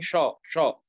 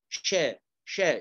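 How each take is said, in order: First: The sh sound is heavy and thick. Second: The sh sound is light and thin. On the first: The speaker calls it wrong. "أنت فخمت الشين، قلت من شا شا" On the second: The speaker calls it right. "قل شا شا"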